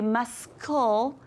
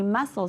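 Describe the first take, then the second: First: The C is pronounced as a K sound. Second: The C is silent, with no K sound. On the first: The speaker calls it wrong. "We don't say muscle" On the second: The speaker calls it right. "We say muscle. So that C is our little ghost letter"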